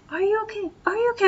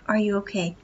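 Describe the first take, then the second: First: High, mocking pestering "Are you okay?"; mock fussing friend. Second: Said in the usual way. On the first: Friend hovering over the girl, mock worried high voice. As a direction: parrot a fussing friend, pitched way up. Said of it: "sitting there going". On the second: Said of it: "Are you okay? (repeated higher)".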